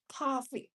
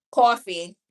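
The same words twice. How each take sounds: First: Coffee with a New York open aw vowel, falling; Coffee the New York way, as kaw-fee. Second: Coffee punched loud, New York aw vowel. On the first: Showing viewers her New York Coffee, kaw-fee. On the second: Insisting to viewers on her loud New York Coffee. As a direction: belt out Coffee as kaw-fee. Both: Shown as a demonstration. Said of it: "We say coffee".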